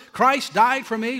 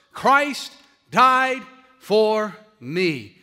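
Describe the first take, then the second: First: Louder, higher, ending on a questioning rise; incredulous questioning. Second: Very slow and loud, long pauses between words; emphatic proclamation. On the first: Retold or imitated. Congregant challenging the pastor over Spurgeon's last words, mock incredulous. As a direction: question it as a puzzled listener would. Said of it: "all he could come up with are three or four words". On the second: Real, not acted. Preacher telling the congregation what will matter on their deathbed, emphatic and slow. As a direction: drive home each word on its own.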